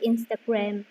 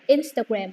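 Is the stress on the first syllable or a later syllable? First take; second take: later; first. First: The stress is on a later syllable. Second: The stress is on the first syllable. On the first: The speaker calls it wrong. "you just say Instagram" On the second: The speaker calls it right. "you should stress the first syllable"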